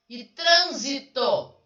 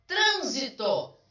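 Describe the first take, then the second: First: Trânsito split slowly as trân-si-to; syllable by syllable. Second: Trânsito with the first syllable hit, slow and higher; stress on TRÂN. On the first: Teacher counting the syllables of trânsito aloud, slow and loud. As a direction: draw out trânsito, one syllable at a time. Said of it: "Tem três". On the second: Teacher showing students the stressed syllable of Trânsito, slow. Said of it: "tá na antepenúltima". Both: Shown as a demonstration.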